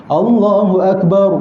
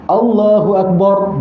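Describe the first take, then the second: The two takes are said the same way.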